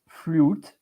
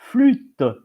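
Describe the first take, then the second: First: The vowel is a rounded English 'oo' sound. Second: The vowel is a fronted French 'u' sound. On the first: "in English you pronounce flute" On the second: "in French you pronounce flûte"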